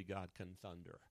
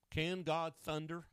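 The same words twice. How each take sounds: First: Lower, softer falling statement; settled answer. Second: Higher, slow, emphatic question; rhetorical question. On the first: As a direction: drop "God can thunder" down low and quieter. Answers own rhetorical question. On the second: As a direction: pose "Can God thunder?" high and drawn out. Rhetorical question before answering it. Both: Real, not acted.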